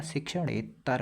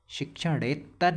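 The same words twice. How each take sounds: First: शिक्षणेतर with one plain t; single t. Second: शिक्षणेतर with a held "tt"; wrong doubled t. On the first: Teacher giving the correct spelling, single t. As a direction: say शिक्षणेतर without doubling the t. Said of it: "शिक्षणेतर होता है". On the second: Teacher rejecting the wrong spelling, doubled t. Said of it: "तो दो बार नहीं होता". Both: Shown as a demonstration.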